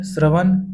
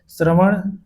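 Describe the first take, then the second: First: श्रवण ending in plain dental n; श्रवण with न instead of ण. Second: श्रवण ending in a retroflex flapped ṇ; careful श्रवण with retroflex ण. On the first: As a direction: say श्रवण as shravan, tongue on the teeth. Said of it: "अशुद्ध है". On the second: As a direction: curl the tongue back on the last sound of श्रवण. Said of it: "शुद्ध है". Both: Shown as a demonstration.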